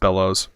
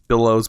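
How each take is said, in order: First: The first vowel sounds like 'bell'. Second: The first vowel sounds like 'bill'. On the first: The speaker calls it right. "I think it's B E L" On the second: The speaker calls it wrong. "I always pronounce that wrong"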